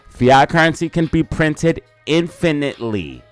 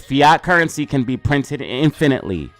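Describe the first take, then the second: First: It is said slowly. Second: It is said at normal speed.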